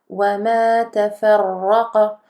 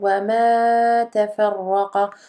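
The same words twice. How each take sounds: First: The vowel of 'ma' is held briefly. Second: The vowel of 'ma' is drawn out. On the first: The speaker calls it right. "on a uniquement deux temps" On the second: The speaker calls it wrong. "On ne doit pas entendre"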